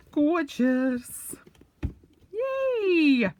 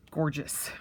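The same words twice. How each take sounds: First: "Gorgeous" sung high and loud with delight; delighted squeal. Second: Said in the usual way. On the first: Real, not acted. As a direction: squeal the word "Gorgeous" in glee.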